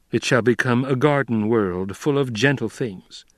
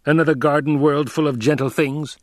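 First: Said in the usual way. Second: Higher-pitched, mocking question; mocking echo. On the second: A narrator's reading. Emperor questioning Paul about Arrakis, mocking. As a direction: throw the promise back with mild scorn. Emperor throws Paul's words back.

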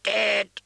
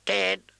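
First: High, louder squawking bird cry; louder shrill raven caw. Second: High cawing bird voice; raven caw. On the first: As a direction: shriek it like an agitated raven. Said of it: "Its voice grew louder and more shrill". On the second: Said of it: "the raven cawed". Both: Acted.

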